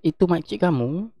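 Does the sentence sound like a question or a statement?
statement. It is read flat, as a plain statement. It states who the person is. "kalau kita baca biasa"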